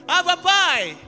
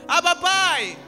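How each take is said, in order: No difference in how they are said.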